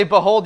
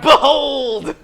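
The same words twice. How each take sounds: First: Said in the usual way. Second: Drawn-out, high, full-voiced shout of BEHOLD. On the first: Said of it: "whenever we say". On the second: Shown as a demonstration. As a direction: shout it like a rallying cry. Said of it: "you gotta shout".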